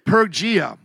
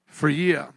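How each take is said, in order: First: The word begins with a P sound. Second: The word begins with an F sound. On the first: The speaker calls it wrong. "I would normally say Pergia. But it is not Pergia" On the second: The speaker calls it right. "It's like an F here"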